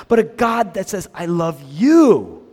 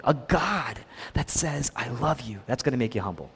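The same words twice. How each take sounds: First: "you" stretched long, loud and swooping high; stress on YOU. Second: Soft, low "I love you"; humbling. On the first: Preacher on a God who makes you strong, loud drawn-out "you". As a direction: punch and draw out "you" in "I love you". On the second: Preacher on a God who humbles you, soft "I love you". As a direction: say "I love you" gently, dropped in volume. Humbling take of repeated phrase. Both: Shown as a demonstration.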